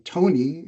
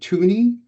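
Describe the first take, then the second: First: The name sounds like Tony. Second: The name sounds like the coin Toonie. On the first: "An American might quite often say" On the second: "Canadians, we give homage to our two dollar coin"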